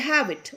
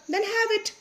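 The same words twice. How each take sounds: First: Said in the usual way. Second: Much higher, coaxing offer; kindly coaxing. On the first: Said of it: "mister Roy ने बोला". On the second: Acted. Mister Roy offering chocolate to the boy, higher coaxing. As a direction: lure him in sweetly. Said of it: "said Mister Roy".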